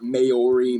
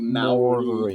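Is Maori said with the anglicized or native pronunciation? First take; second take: anglicized; native. First: The word has an anglicized pronunciation. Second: The word has its native-style pronunciation. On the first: The speaker calls it wrong. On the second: The speaker calls it right.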